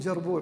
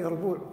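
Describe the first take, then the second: First: The word begins with a j sound. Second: The word begins with a y sound. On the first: The speaker calls it wrong. "بعضهم يقول جربوع" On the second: The speaker calls it right. "في اللغة العربية يربوع"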